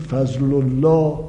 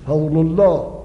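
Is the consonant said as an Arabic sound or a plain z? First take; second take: plain z; Arabic sound. First: The second consonant is a plain z sound. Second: The second consonant is a distinct Arabic sound. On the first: This is everyday Persian speech. "عزیز و عذاب و عظیم و فضل الله رو زه میگیم" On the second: This is Quranic recitation. "اما وقتی رسیدیم به قرآن"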